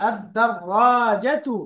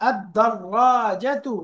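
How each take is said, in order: No difference in how they are said.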